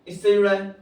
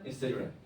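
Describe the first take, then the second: First: इससे said loud and punched; loud stressed इससे, then it drops; emphatic repeat. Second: इससे जुड़ा है dropped low and soft; quiet echo of इससे जुड़ा है; soft repeat. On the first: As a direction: hammer home इससे जुड़ा है. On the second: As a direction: murmur it back to yourself. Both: Shown as a demonstration.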